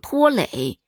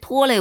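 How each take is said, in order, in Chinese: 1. 第二个字是第三声。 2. 第二个字不是第三声。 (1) "他都读三声" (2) "但他不对"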